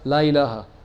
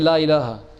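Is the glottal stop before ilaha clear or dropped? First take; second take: dropped; dropped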